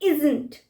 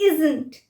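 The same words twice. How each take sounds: No difference in how they are said.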